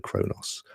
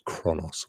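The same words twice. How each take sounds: First: Kronos with a long o, as in "crow". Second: Kronos with a short o, as in "cross". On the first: Host trying a game title's name, Kronos with long o. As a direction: say Kronos as KROH-noss. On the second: Host offering another pronunciation, Kronos with short o. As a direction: say Kronos as KRON-oss. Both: Shown as a demonstration. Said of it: "or however you wanna pronounce it".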